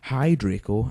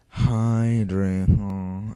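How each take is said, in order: First: The greeting sounds cheerful and upbeat. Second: The greeting sounds low and depressed.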